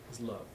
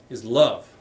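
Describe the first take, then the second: First: Soft echo. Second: Loud emphatic answer. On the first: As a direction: repeat "Is love" much softer, "love" falling away. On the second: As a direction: punch "is love" loudly and let "love" fall. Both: Acted.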